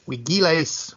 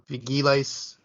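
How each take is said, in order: First: The word begins with a W sound. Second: The word begins with a V sound.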